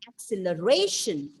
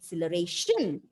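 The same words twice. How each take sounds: First: The stress is on the fourth syllable. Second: The stress is on the fifth syllable. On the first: "fourth syllable ... that is the perfect pronunciation" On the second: "if you stress on the last syllable"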